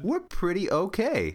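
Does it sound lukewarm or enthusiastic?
enthusiastic. It sounds enthusiastic, meaning quite good.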